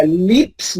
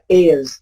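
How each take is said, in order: First: Lips said slowly with a wrong vowel, the way not to; slow drawn-out wrong take of lips; wrong vowel demo. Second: Is, said with a short clipped i like bit. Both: Shown as a demonstration. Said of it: "Không phải là lips nha".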